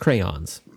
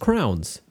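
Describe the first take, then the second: First: The word is said with two syllables. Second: The word is squeezed into one syllable. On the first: The speaker calls it right. "It's two syllables" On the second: The speaker calls it wrong. "pronounce the word crayon as crowns. It's not crowns"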